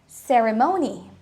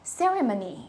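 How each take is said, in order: First: The o is a full vowel, American style. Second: The o is reduced to schwa, British style. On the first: "if you're using an American accent, you will sound like" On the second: "If you're using a British accent, the O would change into a schwa sound"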